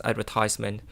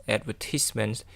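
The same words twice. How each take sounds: First: Advertisement said the US way, stress on tise, AD-ver-TISE-ment, a bit quicker; American pronunciation. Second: Advertisement said the British way, stress on the second syllable, ad-VER-tis-ment; British pronunciation. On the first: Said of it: "in U K it pronounced as advertisement". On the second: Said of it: "it is pronounced as advertisement". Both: Shown as a demonstration.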